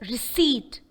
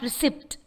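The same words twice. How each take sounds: First: The word is said with no P sound. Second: The word is said with a P sound. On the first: The speaker calls it right. "The sound P is silent. It's just receipt" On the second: The speaker calls it wrong. "not receipt"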